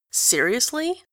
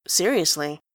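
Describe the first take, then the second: First: Sharp rising disbelief on "Seriously?"; blurted disbelief. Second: Low, flat, falling "Seriously"; deadpan. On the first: Grantaire blurts out at Enjolras, stunned disbelief. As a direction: blurt it out, startled. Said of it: "Grantaire blurts out". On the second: Enjolras confirms it to Grantaire, flat deadpan. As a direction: state it flatly, no doubt. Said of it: "says Enjolras". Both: A narrator's reading.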